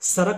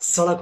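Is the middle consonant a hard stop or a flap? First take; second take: stop; flap. First: The middle consonant is a hard d stop. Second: The middle consonant is a quick tongue flap. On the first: The speaker calls it wrong. "सड़क नहीं होती है" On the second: The speaker calls it right. "सड़क होती है"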